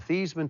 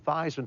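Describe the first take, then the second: First: The name does not rhyme with Heisman. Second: The name rhymes with Heisman. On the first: This is the family's original pronunciation. "changing the pronunciation of your last name from Thiesman" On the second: This is the changed pronunciation meant to win the trophy. "to Theismann to rhyme with Heisman"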